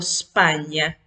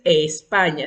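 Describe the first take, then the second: First: The word starts directly with the S sound. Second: A vowel sound is heard before the S. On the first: The speaker calls it right. "sino España. La S tiene un sonido fuerte" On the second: The speaker calls it wrong. "No vamos a decir España"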